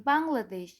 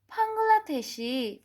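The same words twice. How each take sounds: First: Said in the usual way. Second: Bangladeshi slow, in Korean style, pang-gla-de-shi falling; Korean pronunciation. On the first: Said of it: "For saying Bangladesh". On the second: Shown as a demonstration. Teacher modelling the Korean Bangladeshi for students. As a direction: draw out Bangladeshi as a Korean speaker would. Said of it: "say it in them in Korean accent".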